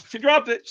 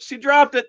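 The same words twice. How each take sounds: First: Said in the usual way. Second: Higher, louder second exclaim; excited exclaim. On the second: Real, not acted. Dog drops treat, exclaiming louder.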